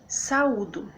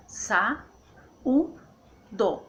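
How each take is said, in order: First: Said in the usual way. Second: "sa, u, do" with u raised; syllable by syllable. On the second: Shown as a demonstration. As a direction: pause between sa, u and do. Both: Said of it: "Então fica assim".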